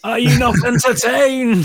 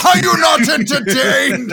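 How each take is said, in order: First: Loud, high arena bellow; quoting the gladiator to the hosts, loud and high; gladiator shout. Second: Loud, high echo through a laugh; echoing the gladiator quote, loud and high; gladiator shout. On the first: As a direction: roar it at the crowd. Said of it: "film line shouted". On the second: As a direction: roar it back laughing. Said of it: "echoes the quote". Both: Acted.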